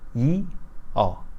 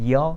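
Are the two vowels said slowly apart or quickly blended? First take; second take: slowly apart; quickly blended. First: Two vowels are said slowly as separate sounds. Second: Two vowels are said quickly as one glide. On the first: "At first pronounce 이 and then 어. In succession" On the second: "pronounce this more quickly like this"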